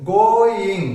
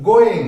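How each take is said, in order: First: গয়িং drawn out as two syllables, go-ing; split into syllables. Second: Said in the usual way. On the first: Shown as a demonstration. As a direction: say গয়িং slowly, one syllable at a time. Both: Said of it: "দুটা syllable আছে".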